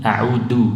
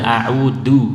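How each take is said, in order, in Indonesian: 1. Huruf tengahnya adalah bunyi d yang terhenti. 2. Huruf tengahnya adalah bunyi d yang terhenti.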